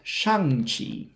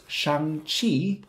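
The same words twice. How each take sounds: First: The stress is on the first syllable. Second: The stress is on the second syllable. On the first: The speaker calls it wrong. "not shang-chi" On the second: The speaker calls it right. "The stress is usually on the second syllable. So it's shang-chi"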